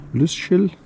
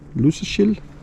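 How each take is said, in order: First: The middle consonant is softened toward sh. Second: The middle consonant is softened toward sh.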